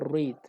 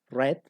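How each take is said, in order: First: It is said as the present-tense form. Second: It is said as the past-tense form. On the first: The action happens now or habitually. "que en presente nosotros tenemos" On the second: The action happened in the past. "en pasado se lee como read"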